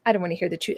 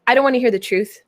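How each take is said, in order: First: Soft, sulky mumble; muttered under breath. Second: Stubborn, refusing to listen; defiant viewer voice. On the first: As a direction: repeat it quietly, sulking. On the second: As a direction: say it like a viewer who won't listen. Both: Pretend. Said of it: "You might".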